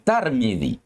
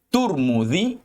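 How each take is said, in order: First: The first syllable has the vowel a. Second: The first syllable has the vowel u. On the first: The speaker calls it wrong. "tetapi tidak dibaca dengan dengan Tarmidzi" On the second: The speaker calls it right. "boleh dibaca dengan uh, Turmudzi"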